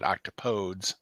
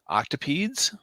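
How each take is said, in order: First: The ending does not rhyme with please. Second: The ending rhymes with the word please. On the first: The speaker calls it wrong. "I've been pronouncing it wrong" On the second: The speaker calls it right. "the pronunciation more appropriately rhymes with the phrase don't say please"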